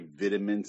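It is said in a British accent. "how British people say vitamins"

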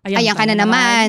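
The phrase is said in a harsh, annoyed tone. The remark is meant as a dismissive complaint. The speaker calls it wrong.

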